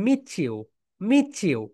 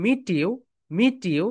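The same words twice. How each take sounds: First: মিট ইউ blended as meechu; native way. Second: মিট ইউ with separate t and you; Bengali way. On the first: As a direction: run মিট ইউ together so the t becomes ch. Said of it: "বিদেশিরা এটাকে বলবে". (বিদেশিদের মতো মিচু বলা) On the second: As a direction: say মিট ইউ with a clear t, two words. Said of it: "আমরা বাঙালিরা এটাকে বলবো". (বাঙালিদের মতো আলাদা করে মিট ইউ) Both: Shown as a demonstration.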